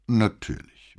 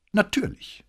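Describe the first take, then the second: First: Echoing repeat. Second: Very high, proud affirmation; undisguised pride. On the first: Commissario repeating the cadet's word, measured echo. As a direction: hand the boy's word back, falling at the end. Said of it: "wiederholte Brunetti". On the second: Cadet confirming his school is costly, openly proud. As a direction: lift "Natürlich" high with open pride. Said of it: "mit unverhohlenem Stolz". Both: A narrator's reading.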